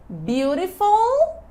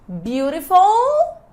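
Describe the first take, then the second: The two takes are said the same way.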